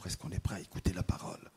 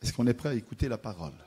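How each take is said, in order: First: The question is said much more quietly. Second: The question is said louder.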